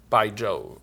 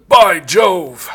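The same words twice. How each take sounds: First: Said in the usual way. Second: Loud mock-British exclamation; hearty old-film British outburst; old British guy. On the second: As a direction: cry it out like an old British movie gent. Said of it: "old, uh, Scot, British guy going".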